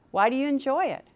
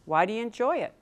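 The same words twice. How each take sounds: First: Why do you enjoy it asked higher with emphasis on enjoy; teacher repeating the question with more weight; pressing question. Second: Said in the usual way. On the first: Shown as a demonstration. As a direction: push the question home on enjoy.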